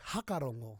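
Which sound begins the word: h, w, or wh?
h. The word begins with a plain h sound. This is how northern speakers say it. "they'll say hakarongo"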